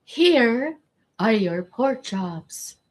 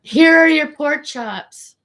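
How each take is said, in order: First: Said in the usual way. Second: High, slow, loud server's line; high sing-song server voice. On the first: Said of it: "I can't wait till the day". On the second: Retold or imitated. Serving customers at the restaurant, high sing-song voice. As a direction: chirp it out like a bored waitress. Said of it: "And I'm like".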